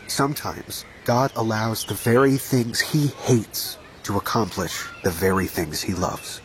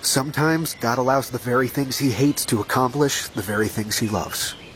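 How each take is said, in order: First: It is said more slowly. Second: It is said at a normal pace.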